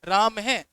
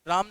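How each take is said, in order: First: The word ends with an added 'ha' sound. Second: The word ends without any final 'ha' sound. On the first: The speaker calls it right. "विसर्ग में हमेशा है की ध्वनि आएगी" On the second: The speaker calls it wrong. "राम नहीं बोला था"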